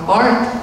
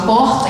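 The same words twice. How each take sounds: First: It is said with the adopted São Paulo pronunciation. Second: It is said with the original regional pronunciation. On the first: He has taken on the new local culture. "ele fala porta" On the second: This is how he used to say it back home. "em vez de falar porta"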